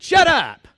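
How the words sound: It is said harshly with an East Texas twist. "I really put the East Texas twist on"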